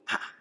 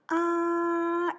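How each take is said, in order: First: The pitch drops sharply from high to low. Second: The pitch stays high and level. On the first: "사성은 다이빙을 하듯이 뚝 떨어지는 소리" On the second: "높은 곳에서 쭉 방향을 변하지 않고 간다. 이것이 일성이야"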